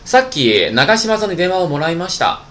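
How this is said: It sounds casual, like everyday chatting.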